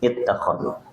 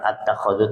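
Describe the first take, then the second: First: The word begins with an i vowel. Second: The word begins with an a vowel. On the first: The speaker calls it right. "tapi ittakhadhu" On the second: The speaker calls it wrong. "Jadi bukan at-takhadhu"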